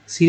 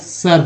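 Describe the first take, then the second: First: The vowel is a short 'i' sound. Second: The vowel is an 'uh' sound. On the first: It is read the way the Hindi spelling suggests. "सिर बोलेंगे तो भी आएगा" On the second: It is the English pronunciation. "English पढ़ा जा रहा है तो एस आई आर सर होता है"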